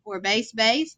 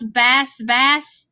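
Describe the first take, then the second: First: Bass said with a long a, like "base". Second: Bass said with a short a, like "mass"; bass as in fish. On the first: Teacher reading the word pairs, bass with a long a. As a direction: say bass to rhyme with "face". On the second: Teacher reading the word pairs, bass with a short a. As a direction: say bass to rhyme with "class". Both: Shown as a demonstration.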